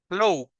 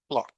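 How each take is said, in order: First: The vowel is a long O sound. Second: The vowel is a short O sound. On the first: The speaker calls it wrong. "Si fuera larga, entonces tendría que sonar como go" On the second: The speaker calls it right. "La letra O en clock es short"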